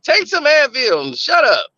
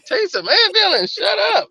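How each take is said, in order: First: Imitating a curt, impatient command; dismissive order. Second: High-pitched mock disbelief; incredulous echo. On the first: Nurse girlfriend dismissing his headache, curt imitation. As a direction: brush off the complaint, mock impatient. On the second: Boyfriend repeating his girlfriend's dismissal back, high and incredulous. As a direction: throw the order back as an appalled question.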